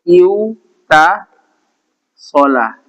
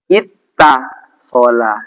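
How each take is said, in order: First: A w sound comes before the t. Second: The w becomes a doubled t sound. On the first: The speaker calls it wrong. "harusnya kan begini" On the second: The speaker calls it right. "Wawunya ini diganti jadi tak"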